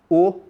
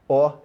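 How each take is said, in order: First: The vowel is closed. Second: The vowel is open. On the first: "é um som fechado" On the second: "é um som aberto"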